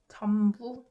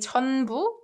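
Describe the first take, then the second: First: The first syllable ends with an m sound. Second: The first syllable ends with a clear n sound. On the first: "but it's more comfortable to say" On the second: "you can enunciate it and say"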